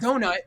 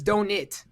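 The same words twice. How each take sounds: First: The word is said in the mom's odd way. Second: The word is said in the usual way. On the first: This is how the mother says it. The speaker calls it wrong. "it's not donut" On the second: This is how most people say it. The speaker calls it right. "It's donut"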